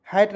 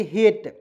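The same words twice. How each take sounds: First: हैट said as "hat" with an open ae vowel; हैट read "hæt", the wrong way to say hate. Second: हेट said as "het" with a short e; हेट read "het", like the English word hate; correct reading. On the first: Teacher warns students not to say हैट as "hæt". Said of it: "हैट नहीं पढ़ेंगे". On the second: Teacher to students, हेट clearly as "het". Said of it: "तो इसे पढ़ेंगे हेट". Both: Shown as a demonstration.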